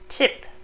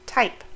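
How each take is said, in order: First: The vowel is a short unrounded i. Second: The vowel is the diphthong 'eye'. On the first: "not tip" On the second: "or type"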